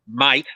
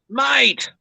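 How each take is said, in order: First: It sounds like a hard, threatening challenge. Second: It sounds like a friendly, warm greeting. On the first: It is a warning or challenge. "that's very different to someone looking at you going" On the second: It is a greeting. "if someone comes up and says"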